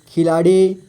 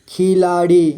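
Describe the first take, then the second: First: Said in the usual way. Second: खिलाड़ी split into खि, ला, ड़ी; syllable by syllable. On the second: Shown as a demonstration. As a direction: draw out each syllable of खिलाड़ी. (खिलाड़ी को तोड़कर: खि, ला, ड़ी) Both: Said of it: "थोड़ा fast पढ़ेंगे".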